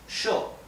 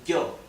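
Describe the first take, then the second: First: It starts with an sh sound. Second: It starts with a tense, buzzy y sound. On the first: "pronounced sho in Uruguay and Argentina" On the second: "unsticking the back of your tongue from your back upper palate"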